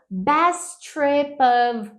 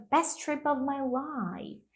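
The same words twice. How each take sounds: First: "best trip of" drawn out very slowly; pronunciation demo. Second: "best trip of my life" linked, softer and slow; connected pronunciation demo. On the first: Teacher gives an example of her tip, "best trip of" slow and stretched. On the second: Teacher completes the example, "best trip of my life" softly connected. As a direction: let "best trip of my life" flow softly as one phrase. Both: Shown as a demonstration. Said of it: "dica de efeito cotonete".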